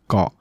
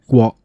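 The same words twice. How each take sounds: First: The start of the word has no lip rounding. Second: The start of the word has lip rounding. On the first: "the lip rounding feature will be dropped" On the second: "the lip rounding feature"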